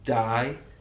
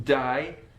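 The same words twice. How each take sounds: First: It is said with a Brummie vowel. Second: It is said with a Brummie vowel.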